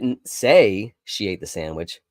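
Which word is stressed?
say. The word "say" carries the main stress. It was communicated some other way. "I may have written it down or texted it to you in a different way"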